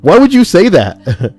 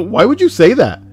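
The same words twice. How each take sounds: First: High, loud, drawn-out mock demand; hammed-up, slow and loud retort; mock indignant question. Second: High-pitched mock questioning; hammed-up retold question; imitating a questioner. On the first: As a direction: stretch it out in exaggerated outrage. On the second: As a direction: ask it in a put-on, raised voice. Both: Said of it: "ask why she would say that".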